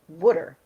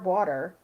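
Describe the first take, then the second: First: It is said in a Philadelphia accent, like 'wooder'. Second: It is said in a standard American accent.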